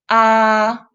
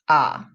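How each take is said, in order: First: The pitch stays high and level. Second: The pitch dips low. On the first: "The first tone, 一声" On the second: "The third tone, 三声"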